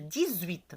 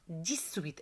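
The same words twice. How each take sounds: First: The x in dix sounds like a z. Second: The x in dix sounds like an s. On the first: The speaker calls it right. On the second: The speaker calls it wrong.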